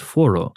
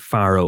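First: It is said the way Swedish speakers say it. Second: It is said as read from the English spelling. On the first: The speaker calls it right. "they actually pronounce it Foro" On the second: The speaker calls it wrong. "I would pronounce that Faro"

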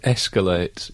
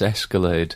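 First: The word ends with a t sound. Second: The word ends with a d sound. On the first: The speaker calls it right. "it's the word escalate" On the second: The speaker calls it wrong. "She says escalade"

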